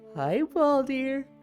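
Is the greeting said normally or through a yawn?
yawn. The greeting is spoken through a yawn. The speaker calls it wrong.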